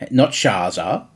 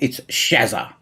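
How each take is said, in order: First: The name is said the American way. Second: The name is said the Australian way. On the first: The speaker calls it wrong. "whatever else you Americans pronounce" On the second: The speaker calls it right. "That's how we pronounce it, people"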